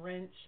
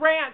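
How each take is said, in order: First: The vowel sounds like an e. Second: The vowel sounds like an a. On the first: The speaker calls it wrong. "they pronounce it like an E" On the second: The speaker calls it right. "it's ranch"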